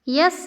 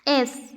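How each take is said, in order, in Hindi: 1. इसकी शुरुआत y ध्वनि से होती है। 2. इसकी शुरुआत एक सामान्य स्वर ध्वनि से होती है।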